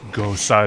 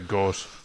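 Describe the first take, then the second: First: The word is said as two syllables. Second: The word is said as one syllable. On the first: The speaker calls it right. "but it's Gosa" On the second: The speaker calls it wrong. "I always say Gos"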